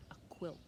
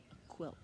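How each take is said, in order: Both takes have the same delivery.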